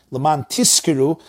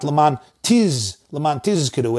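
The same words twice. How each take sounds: First: Tizkiru pronounced as tiskiru, hissed S. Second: Tizkiru with a buzzing Z, tiz isolated; clear zayin in tizkiru. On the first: Teacher showing the mistaken word, tizkiru with S. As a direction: replace the Z of tizkiru with S. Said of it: "tizkiru means you should get rewarded". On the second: Teacher showing the right word, clear Z in tizkiru. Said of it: "it should be tiz". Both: Shown as a demonstration.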